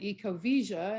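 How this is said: The double L sounds like 'zh'. This is how South Americans say it. "the double L's is pronounced as a zh"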